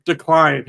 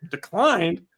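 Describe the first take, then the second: First: Flat loud card-reader Declined; machine voice. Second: Declined as a baffled rising question; puzzled echo. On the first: Card machine announcing declined, loud and flat. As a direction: say Declined like a beeping terminal. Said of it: "It goes". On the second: Employee puzzled at the reader, mild disbelief. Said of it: "He's like". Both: Retold or imitated.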